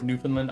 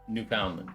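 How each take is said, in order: First: It is said the way most people say it. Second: It is said following its spelling. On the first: "everyone says Newfoundland" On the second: "it's spelled Newfoundland, so I pronounce it Newfoundland"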